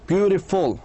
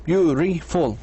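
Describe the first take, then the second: First: "Beautiful" in measured beats, beauti-ful; syllable by syllable. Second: "Beautiful" broken into beau, ti, ful; three separate beats on "Beautiful"; fully split syllables. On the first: Teacher gives learners another syllable example, beats marked. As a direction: stretch "Beautiful", setting off the final ful. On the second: Teacher repeats the example for learners, every syllable apart. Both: Shown as a demonstration. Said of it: "وقف قصير".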